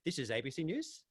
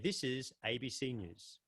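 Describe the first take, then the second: First: The pitch rises at the end. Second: The pitch falls at the end. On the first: The speaker sounds unconvinced about the news. The speaker calls it wrong. "they don't sound too convinced about the news they got to share" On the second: The news is serious and authoritative. The speaker calls it right. "We register a downward inflection with something that is important"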